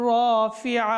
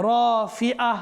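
Both takes have the same delivery.

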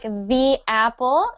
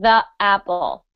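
First: The word 'the' is said as 'thee'. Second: The word 'the' is said as 'thuh'. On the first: The speaker calls it right. "we normally only pronounce that as the if we're talking, if the next word is a vowel" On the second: The speaker calls it wrong. "instead of"

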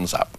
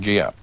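First: The name begins with a Z sound. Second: The name does not begin with a Z sound. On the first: This is how the local people pronounce it. "but they say ... like a Z" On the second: This is the speaker's own habitual pronunciation. "I always used to say"

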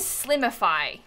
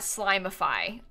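First: The first syllable sounds like 'slim'. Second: The first syllable sounds like 'slime'. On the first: It is about getting slim. The speaker calls it right. "that says Slimify" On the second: It is about turning into slime. The speaker calls it wrong. "When I thought it was slime"

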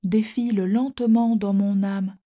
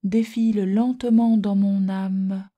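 First: The final e of âme is silent. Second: The final e of âme is pronounced. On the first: "On ne dit plus" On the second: "il faut prononcer le « e » ordinairement muet"

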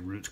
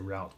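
First: It is said the English way. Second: It is said the Australian way.

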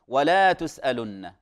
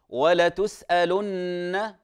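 First: The vowel after the lam is lengthened. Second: The vowel after the lam is short. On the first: The lam becomes a negation. The speaker calls it wrong. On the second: The lam adds emphasis. The speaker calls it right.

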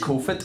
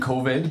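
First: The word ends in a voiceless 't' sound. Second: The word ends in a voiced 'd' sound. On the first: This is how many people back home in Ireland say it. The speaker calls it wrong. "we are going fully against COFIT" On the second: This is how the rest of the world says it. The speaker calls it right. "Everyone else in the world is fighting COVID"

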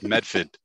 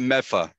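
First: The d and r sounds are fully pronounced. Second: The d and r sounds are dropped. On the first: The speaker calls it right. "It's Medford" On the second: The speaker calls it wrong. "it's not Meffa"

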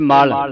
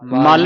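First: The word is said with a soft, light sound. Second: The word is said with a hard, forceful sound. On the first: The speaker calls it right. "ਪੋਲਾ ਪੜਨਾ ਇਹਨੂੰ" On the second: The speaker calls it wrong. "ਮਲ ਨਹੀਂ ਕਹਿਣਾ"

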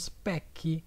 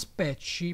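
First: The word is given an English pronunciation. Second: The word is given an Italian pronunciation. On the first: "in inglese dicono specchi" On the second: "in italiano noi diciamo specci"

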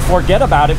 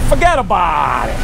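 First: It is said in a standard accent. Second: It is said in a New York accent. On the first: This is how people elsewhere say it. "instead of saying forget about it" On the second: This is how New Yorkers say it. "It's like in New York, ... we say forget about it"

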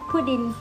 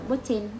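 First: The middle consonant sounds like a D. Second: The middle consonant sounds like a T. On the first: "tiếng Anh Mỹ thì nó sẽ đọc thành âm D" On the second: "còn anh thì nó đọc thành âm T"

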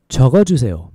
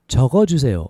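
The two takes are said the same way.

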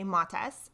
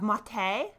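First: The first vowel is an o sound. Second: It ends in a vowel with no s sound. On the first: "with an O instead of an A" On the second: "the fancy French version of maté, so we drop the S"

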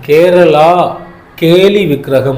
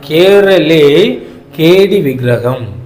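First: The first word ends with a long 'a' vowel. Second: The first word ends with an 'e' vowel. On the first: The speaker calls it wrong. "இந்த ப்ரொனன்சியேஷன்ன்றது தவறு" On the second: The speaker calls it right. "உண்மையான pronunciation"

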